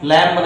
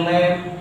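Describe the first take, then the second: First: "लैम्प" as the mistaken reading with B after M; wrong, sounded B. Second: "लैम्प" ending on M, no B; silent B. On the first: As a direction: add a B to the M ending of "लैम्प". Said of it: "लैम्प नहीं बोलते हैं". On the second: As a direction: close "लैम्प" on the M. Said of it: "यम के बाद बी कभी नहीं पढ़ा जाता". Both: Shown as a demonstration.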